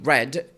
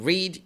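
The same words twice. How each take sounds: First: The word sounds like the color red. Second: The word does not sound like red. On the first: The speaker calls it right. "change the sound to look at to make it look like the color red" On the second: The speaker calls it wrong. "instead of saying read"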